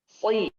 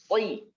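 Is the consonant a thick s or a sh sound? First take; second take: thick s; thick s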